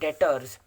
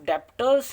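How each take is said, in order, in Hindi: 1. 't' से पहले 'b' की कोई ध्वनि सुनाई नहीं देती। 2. 't' से पहले 'b' जैसी ध्वनि सुनाई देती है। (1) "इसको पढ़ा जाता है डेटर्स ... बी ... साइलेंट होता है" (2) "इसको डेप्टर्स नहीं पढ़ा जाता"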